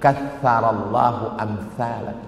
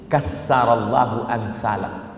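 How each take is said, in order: First: The consonant after 'ka' is a 'th' sound. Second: The consonant after 'ka' is an 's' sound. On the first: May God multiply people like you. "Bunyi yang betul" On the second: May God destroy people like you. "Dia hilangkan sa jadi sin"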